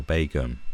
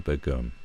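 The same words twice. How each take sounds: First: Begum as BAY-gum; long AY vowel opening Begum; radio pronunciation. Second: Begum as buh-GUM; short neutral vowel opening Begum; first syllable reduced. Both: Shown as a demonstration. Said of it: "That's how they pronounced it".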